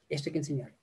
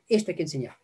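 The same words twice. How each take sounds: First: "Esto hay que enseñar" repetido mucho más suave; repetido en voz baja. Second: Said in the usual way. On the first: Shown as a demonstration. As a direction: baja la voz para recalcarlo. (eco suave y bajo)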